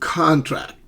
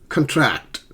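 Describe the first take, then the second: First: The stress is on the first syllable. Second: The stress is on the second syllable. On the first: It is a noun. "which is a noun" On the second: It is a verb. "which becomes a verb"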